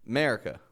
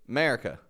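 Both takes have the same delivery.

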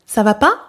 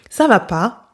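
First: The pitch rises at the end. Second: The pitch rises and then falls.

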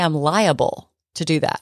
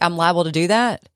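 First: Liable is said with three syllables, the A sounded. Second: Liable is said with two syllables, like libel. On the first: The speaker calls it right. "You have to pronounce the A in it" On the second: The speaker calls it wrong. "is libel"

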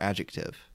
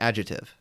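First: The c sound is clearly pronounced. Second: The c sound is dropped. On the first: The speaker calls it right. "you have to really put the C in there" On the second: The speaker calls it wrong. "I always just said adjective"

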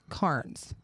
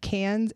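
First: The name is said with a pirate-like sound. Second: The name is said plainly, without a pirate sound. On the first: The speaker calls it wrong. "I was saying it like a pirate. I was saying it wrong" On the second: The speaker calls it right. "Cairns is not"

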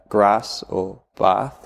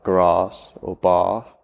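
First: The A vowel is short, local Gloucestershire style. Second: The A vowel is long, southern British style.

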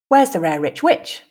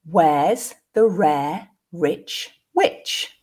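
First: The sentence is said at a natural pace. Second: The sentence is said at a slow pace. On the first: "the second two at a more natural pace" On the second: "the first time slowly"

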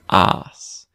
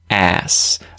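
First: The vowel is long, as in an Australian accent. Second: The vowel is short, as in an American accent. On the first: "Australians use the longer vowel, that R vowel, like saying the word car" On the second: "Americans would say ass"

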